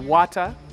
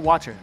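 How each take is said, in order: First: It is said in a British accent. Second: It is said in an American accent. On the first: "el acento inglés de la reina de Inglaterra" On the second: "en América se diría"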